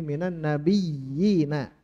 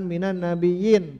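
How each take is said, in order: First: The y sound is held long and doubled. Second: The y sound is short and single. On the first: The speaker calls it right. "Terdengar ada ada mudhoafnya" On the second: The speaker calls it wrong.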